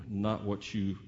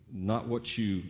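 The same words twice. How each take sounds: The two takes are said the same way.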